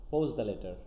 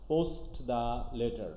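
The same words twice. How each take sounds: First: "post" as "pos", running into "the letter"; T dropped. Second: "post" slowly with its T sounded before "the"; full T. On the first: Teacher shows students elision, T-less "post". Elided form after full form. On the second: Teacher shows the unreduced phrase, full T in "post". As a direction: separate post the letter, keeping the T. Full form against elided form. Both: Shown as a demonstration.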